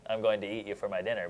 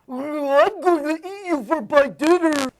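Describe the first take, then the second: First: The voice sounds clear and normal, nose unblocked. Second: The voice sounds pinched and nasal, nose blocked.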